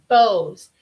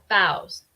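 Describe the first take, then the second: First: It is said with the noun's vowel sound. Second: It is said with the verb's vowel sound. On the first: It names the ribbons. "La segunda es un sustantivo" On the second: It means bending forward. "Y la tercera palabra es un verbo también"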